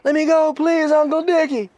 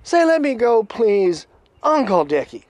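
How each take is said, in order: First: Very high, loud mock begging; imitated captive crying uncle at the top of the voice; desperate pleading captive. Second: Loud, raised voice of command; imitated loud, high demand; Critter. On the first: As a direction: squeal out the forced plea. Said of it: "And the guy goes". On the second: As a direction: dictate the words forcefully. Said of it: "And then he says".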